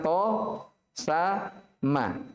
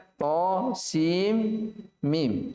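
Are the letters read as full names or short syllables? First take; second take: short syllables; full names. First: Each letter is cut to a short syllable. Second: Each letter is read with its full name. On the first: The speaker calls it wrong. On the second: The speaker calls it right. "Kita baca"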